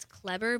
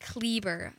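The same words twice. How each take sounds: First: Kleber mispronounced with a short E, KLEB-er; common mispronunciation. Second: Kleber with a long A, KLAY-ber; correct name pronunciation. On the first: Singer shows how everyone says her name [name], short-E mispronunciation. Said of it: "everyone pronounces it as Kleber". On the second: Singer corrects how her name [name] is said, long-A first syllable. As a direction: lengthen the first vowel of Kleber to an A sound. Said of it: "I gotta add an A to the". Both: Shown as a demonstration.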